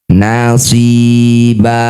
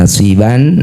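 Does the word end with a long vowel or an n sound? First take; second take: long vowel; n sound. First: The word ends with a long a vowel. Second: The word ends with an n sound. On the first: "ini kita ganti jadi fathah panjang" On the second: "Bunyi fathah tanwin ban"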